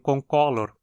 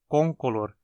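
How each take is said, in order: First: The stress is on the second syllable. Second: The stress is on the first syllable. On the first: The speaker calls it wrong. "e não concolor, como muitos falam" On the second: The speaker calls it right. "a pronúncia adequada é concolor"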